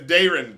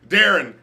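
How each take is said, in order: First: The first vowel sounds like 'day'. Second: The first vowel does not sound like 'day'. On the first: The speaker calls it right. "it's Darren. Day, hey" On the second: The speaker calls it wrong. "that's not my name"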